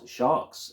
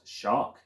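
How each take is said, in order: First: The word is said as sharks. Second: The word is said as shark. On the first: "It is not sharks" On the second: "it's not shark"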